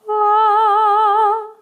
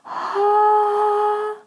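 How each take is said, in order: First: It starts with a gentle, coordinated onset. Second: It starts with a breathy onset.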